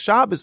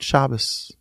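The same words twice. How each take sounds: First: The word is shouted loudly. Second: The word is whispered softly. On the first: Others are publicly rebuking the driver. "people shouting on top of their lungs" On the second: It is a private reflection, not a rebuke. "He said in a whisper to himself"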